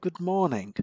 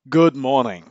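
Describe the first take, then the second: First: The voice is slack, soft and relaxed. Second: The voice is open, firm and authoritative. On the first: The caller conveys no urgency. The speaker calls it wrong. "sit down and relax into your couch so that your shoulders and your chin is relaxed" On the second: The caller conveys urgency. The speaker calls it right. "Stand up so the air passage is open and say"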